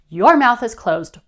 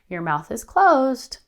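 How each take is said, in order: First: It is said in an angry, heated tone. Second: It is said in a soft, tentative tone. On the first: The speaker is upset and confrontational. "Instead of angrily" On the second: The expectation seems optional or negotiable. "something that's passive or negotiable"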